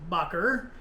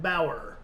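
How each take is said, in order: First: It has a hard consonant in the middle. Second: It rhymes with power, with no middle consonant. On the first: The speaker calls it right. "it is actually pronounced Bacher" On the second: The speaker calls it wrong. "I pronounced it Bauer"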